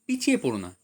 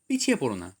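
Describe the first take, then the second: No difference in how they are said.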